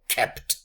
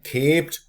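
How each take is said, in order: First: The vowel is short. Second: The vowel is long. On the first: This is the later shortened form. "and therefore kept" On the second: This is the older form before shortening. "consonant cluster"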